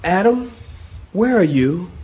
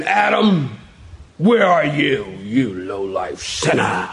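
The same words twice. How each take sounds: First: Tender call with a questioning lift; gentle searching God. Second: Mock-wrathful call, sinking into a low, slow growl; stern put-on scolding, dropping low at the end; harsh condemning God. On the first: Acted. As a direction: call out gently to someone lost. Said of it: "I get more of a tone of". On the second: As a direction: accuse like a furious judge, hammed up. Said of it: "I don't get that tone".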